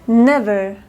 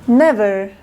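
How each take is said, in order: The two takes are said the same way.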